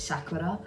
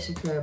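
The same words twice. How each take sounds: First: It is said with a Japanese-style pronunciation. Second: It is said with an anglicised British pronunciation. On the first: The speaker calls it right. "but I think it's Sakura" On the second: The speaker calls it wrong. "I always call it Sakura... it sounds more British and easy for me"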